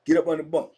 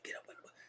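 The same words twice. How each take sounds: First: Said in the usual way. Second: Hissed urgent whisper to someone hiding. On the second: Retold or imitated. Cellmate whispering to his friend to hide under the bunk, urgent whisper. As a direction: whisper fast so nobody outside hears.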